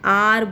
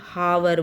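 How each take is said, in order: First: The word starts with a vowel, no h sound. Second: The word starts with an audible h sound. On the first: The speaker calls it right. "एन आर बोल रहे हैं" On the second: The speaker calls it wrong. "ना कि हावर बोल रहे"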